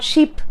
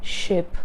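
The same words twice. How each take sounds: First: "sheep" with a long tense ee, rising; a drawn-out rising ee in "sheep". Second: "ship" slow with a short lax i; a slow, soft, short-vowel "ship". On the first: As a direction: stretch "sheep" up on the ee. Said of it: "It's not sheep". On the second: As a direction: take "ship" slowly, keep the i short. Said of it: "just go slow with ship". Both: Shown as a demonstration.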